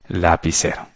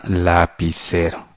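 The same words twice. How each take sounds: First: Said in the usual way. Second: Slow and soft, syllable by syllable; slow dictation. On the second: Shown as a demonstration. Teacher dictates the other noun to pupils, slow soft dictation. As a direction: stretch out lapicero softly for someone writing it.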